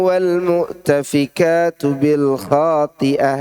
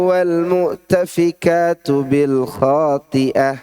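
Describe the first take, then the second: The two takes are said the same way.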